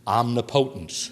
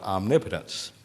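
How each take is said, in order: First: It is said in a Texas pronunciation. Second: It is said in a standard pronunciation.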